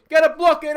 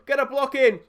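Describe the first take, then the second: First: Much louder, higher desperate shout; desperate yell. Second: Loud, high urgent call to block; urgent plea. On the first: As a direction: scream it as the shot comes in. Repeats plea more desperately. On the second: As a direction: shout at the defenders to block. Begging defenders to block. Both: Real, not acted.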